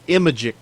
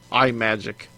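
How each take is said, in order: First: The name does not start with a separate 'eye'. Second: The name starts with 'eye' before 'magic'.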